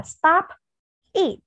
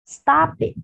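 First: "stop, eat" as two words with a pause between; words read separately. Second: "stop it" run together, the p joined onto "it"; linked sounds. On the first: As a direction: split "stop" from "eat", each word standing alone. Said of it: "Khi chúng ta đọc tách riêng từng từ". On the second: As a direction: link "stop it" as if one word, sto-pit. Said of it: "Và khi chúng ta nối âm". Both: Shown as a demonstration.

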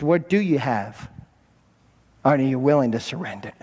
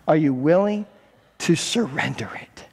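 First: Said in the usual way. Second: Whisper. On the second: Acted. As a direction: drop to an urgent whisper on surrender it. Jesus voiced, urgent repeat.

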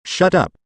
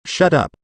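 First: "Shut up" repeated a little higher, more insistent; angrier retort. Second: "Shut up" snapped out, pitched up, first of two; angry retort. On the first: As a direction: hammer the second "Shut up" harder. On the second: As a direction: cut him off angrily with "Shut up". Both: A narrator's reading. Furious villain snaps back.

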